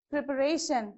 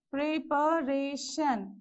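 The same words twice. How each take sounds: First: Said in the usual way. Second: "preparation" slowly split into four beats; syllable by syllable. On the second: Shown as a demonstration. Teacher counting syllables for students, "preparation" slowly broken up. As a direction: sound out "preparation" one syllable at a time, slowly. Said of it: "So how many".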